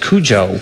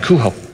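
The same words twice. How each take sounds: First: The J is a hard English J sound. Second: The J is a breathy Spanish J sound. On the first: This is the name as commonly said. The speaker calls it wrong. "the whole world has decided the name of the dog" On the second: This is the name as the book's characters say it. The speaker calls it right. "It's a J with the Spanish pronunciation"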